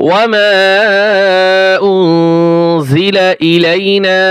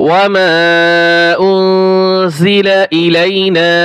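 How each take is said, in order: No difference in how they are said.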